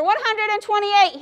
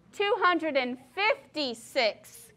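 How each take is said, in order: First: "One hundred and twenty-eight" higher and louder, grinning; announced with a grin. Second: Slow, firm correction of the sum; tortoise correcting the elephant's math, slow and firm. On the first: Acted. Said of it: "he announced with a grin". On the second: A narrator's reading. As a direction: set the number straight, slowly. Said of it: "corrected the tortoise".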